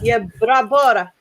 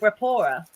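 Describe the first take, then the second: First: The name begins with a Y sound. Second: The name begins with a B sound. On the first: "I don't even know if you say the Y actually" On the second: "It might be Brapora"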